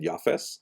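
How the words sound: The name ends with an s sound.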